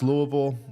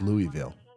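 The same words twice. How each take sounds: First: It is pronounced the Kentucky way. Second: It is pronounced a third, different way. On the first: This is the town in Kentucky. "In Kentucky, it's Louisville" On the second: This is the town in another state. "in wherever that other one is, it's Louisville"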